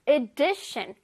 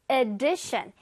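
First: "addition" with a short, reduced 으-like vowel. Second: "addition" drawn out slowly with a full, over-clear vowel instead of the reduced one; over-pronounce every vowel in "addition"; wrong vowel demo. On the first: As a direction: say "addition" compactly, weakening the vowel to 으. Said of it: "으 소리를 내주세요". ("addition"을 으 소리를 살려서) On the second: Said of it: "아니라 으 소리를 내주세요". ("addition"을 으 소리 없이 또박또박 늘여서) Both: Shown as a demonstration.

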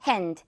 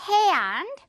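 First: Short single vowel in hand; unpulled hand. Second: Long e-ah glide in hand; rubber-band hand. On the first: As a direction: hand low and short, "hend". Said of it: "당기지 않은 고무줄 발음". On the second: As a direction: hand higher, stretched to "he-and". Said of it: "고무줄 당깁니다". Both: Shown as a demonstration.

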